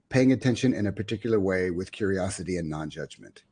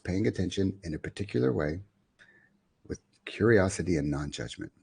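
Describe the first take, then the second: First: The phrase is spoken at a quicker pace. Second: The phrase is spoken at a slower pace.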